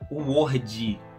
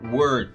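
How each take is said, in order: First: An extra vowel sound follows the final D. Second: It ends on the R, without any vowel. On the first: The speaker calls it wrong. "a gente não fala word" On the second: The speaker calls it right. "A pronúncia correta é word"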